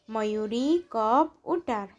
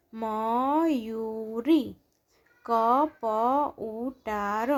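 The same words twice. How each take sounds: First: Said in the usual way. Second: Mayuri કપ ઉતાર slow, each syllable stretched; drawn-out Mayuri કપ ઉતાર, syllables separated. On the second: Shown as a demonstration. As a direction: sound out Mayuri કપ ઉતાર slowly, pausing between words. Syllable-by-syllable reading, then blended words.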